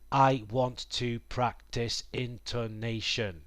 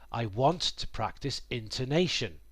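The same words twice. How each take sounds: First: Every syllable gets equal length and weight. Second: Stressed syllables are longer, unstressed ones reduced. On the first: "the timing of each syllable is the same" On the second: "Some words are given more emphasis or stress than others"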